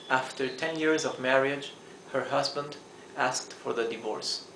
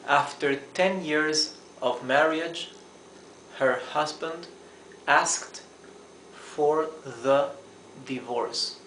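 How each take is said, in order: First: The sentence is spoken at normal speed. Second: The sentence is spoken slowly and carefully.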